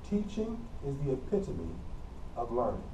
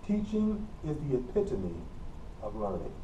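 The two takes are said the same way.

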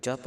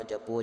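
First: ਜਪ closed on p, no o after it; correct bare ending. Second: ਜਪੋ with a full o on the end; wrong o ending. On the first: Teacher corrects the congregation, short ਜਪ. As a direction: stop ਜਪ at the p. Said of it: "ਜਪ ਬੋਲਣਾ ਹੈ". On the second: Teacher shows the mistake, o added in ਜਪੋ. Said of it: "ਜ਼ਿਆਦਾ ਹੋੜਾ ਨਹੀਂ ਲਾ". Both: Shown as a demonstration.

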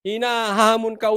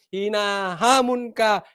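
First: Said in the usual way. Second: Slow deliberate "hinahamon ka" with weight on "ka"; slow, pointed repeat of "hinahamon ka", the "ka" falling; slow emphatic repeat. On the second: Shown as a demonstration. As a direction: spell out "hinahamon ka" slowly, landing hard on "ka". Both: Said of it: "ulitin ko".

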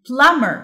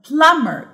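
Both takes have the same delivery.

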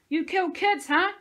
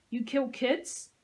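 First: Screamed much higher and louder in rage. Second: Menacing. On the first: Josie screams into the soldier's face, enraged. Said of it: "screamed in his face". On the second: Josie menaces the soldier she is beating, slowly. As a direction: drag each word out as a threat. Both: Acted.

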